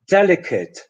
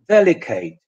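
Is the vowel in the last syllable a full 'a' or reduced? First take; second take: reduced; full a. First: The last syllable has a short reduced vowel. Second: The last syllable has a full 'a' vowel. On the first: The speaker calls it right. "the correct English pronunciation" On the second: The speaker calls it wrong. "you end up only having a foreign accent"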